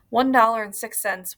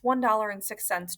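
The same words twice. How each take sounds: First: Louder blurted count; excited counting. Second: Said in the usual way. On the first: A narrator's reading. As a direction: blurt the numbers out. Natalie repeating numbers loudly.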